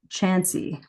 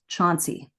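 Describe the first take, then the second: First: The first syllable has a short 'a' vowel. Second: The first syllable has a broad 'aw'-like vowel. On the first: The speaker is a local insider. The speaker calls it right. "But actually, it's pronounced Chansey" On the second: The speaker is an outsider. The speaker calls it wrong. "they will think it's pronounced Chauncey, like ah"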